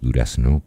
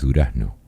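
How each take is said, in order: First: The s is pronounced fully as an s. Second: The s is aspirated, like a soft h. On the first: Nobody in the place says it this way. The speaker calls it wrong. "No digas Durazno" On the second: This is how local people say it. The speaker calls it right. "no, es Durazno"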